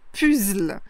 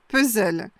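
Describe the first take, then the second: First: It is pronounced closely following the French spelling. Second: It is pronounced like the original English word. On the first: "ça se rapproche plus de la prononciation qui est proche de l'orthographe" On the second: "ça se rapproche plus de la prononciation d'origine"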